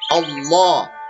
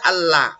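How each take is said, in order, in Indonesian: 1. Bunyi l-nya gelap dan tebal. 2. Bunyi l-nya terang dan tipis. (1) "maka Allah-nya tebal" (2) "tidak boleh dibaca Allah"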